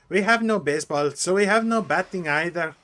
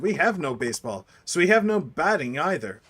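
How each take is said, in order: First: It is spoken in a non-American accent. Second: It is spoken in an American accent.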